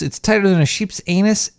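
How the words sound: It is read in a put-on voice.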